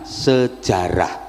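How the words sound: It has Indonesian sounds, ending in -rah. This is the easier local adaptation. "maka diambil gampangnya sejarah"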